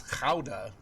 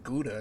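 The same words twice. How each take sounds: First: Gouda said with a throaty Dutch G, like "HOW-da"; Dutch pronunciation. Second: Gouda said with a hard English G, as "GOO-da"; mock the usual Gouda with a hard G; common wrong way. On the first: Correcting the viewers, Gouda with a guttural Dutch G. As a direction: give Gouda its guttural Dutch G, soft and low. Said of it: "It's not Gouda". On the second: Explaining the common error, Gouda with a hard G. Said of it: "a lot of people say Gouda". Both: Shown as a demonstration.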